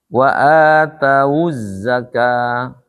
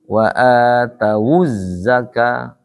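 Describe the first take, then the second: First: The waw is closed with no following vowel. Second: The waw carries a u vowel into the next word. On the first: "asalnya wawunya sukun" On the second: "Berubah menjadi"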